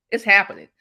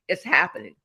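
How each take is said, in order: First: Insist, louder than before; louder insistent repeat. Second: Said in the usual way. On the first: Real, not acted. Motivational guest to host, louder insistent repeat. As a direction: punch it harder the second time. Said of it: "repeats louder for emphasis". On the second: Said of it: "repeats for emphasis".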